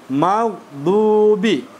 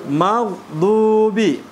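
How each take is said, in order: No difference in how they are said.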